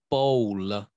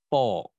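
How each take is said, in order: First: An extra syllable follows the L, Indian style. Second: The final L is weak, Taiwanese style.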